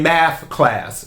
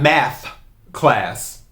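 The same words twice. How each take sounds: First: The word math ends with an F sound. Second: The word math ends with a TH sound. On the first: This is how it was said in childhood. The speaker calls it wrong. "I used to say math with an F" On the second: This is the standard way to say it. The speaker calls it right. "I didn't say it with the T H"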